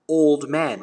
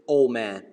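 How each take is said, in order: First: The D sound in old is pronounced. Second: The D sound in old is dropped. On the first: "in British Standard English, it's going to sound old man, right? You you pronounce the D" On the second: "but in American, it's removed. Okay, you're going to say old man"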